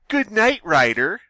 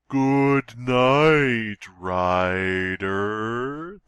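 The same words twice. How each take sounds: First: It is said at a normal pace. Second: It is said very slowly and drawn out. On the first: The speaker calls it wrong. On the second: The speaker calls it right.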